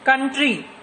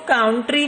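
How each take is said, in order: First: The first vowel sounds like 'uh'. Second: The first vowel sounds like 'ow'. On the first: The speaker calls it right. "इसको कैसे बोलते हैं? कंट्री।" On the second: The speaker calls it wrong. "इसको काउंट्री नहीं बोलते।"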